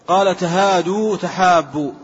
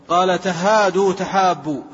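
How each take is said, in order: Both takes have the same delivery.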